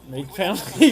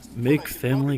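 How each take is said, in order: First: It is said in an ordinary speaking voice. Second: It is said on a very low pitch. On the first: "but in your normal voice" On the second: "Low, lowest note you could hit"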